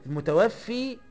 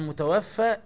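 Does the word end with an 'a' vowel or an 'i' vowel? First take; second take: i; a. First: The word ends with an 'i' vowel. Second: The word ends with an 'a' vowel. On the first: The one who causes death. "ما تكسرهاش، المتوفي الله" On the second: The one who has died. "افتحها ... انما المتوفى العبد"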